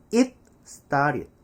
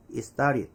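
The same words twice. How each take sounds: First: "It started" with a clear T, "it, star-rid"; 한국식 발음. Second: "it started" as "i-starid", T dropped; 원어민식 발음. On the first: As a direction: separate the words, full stop on "It". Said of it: "자, 우리는". ('It'의 T를 살려 '잇 스따릿') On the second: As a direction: glide from "it" straight into "started". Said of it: "원어민은". ('이스따릿'으로 붙여서) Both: Shown as a demonstration.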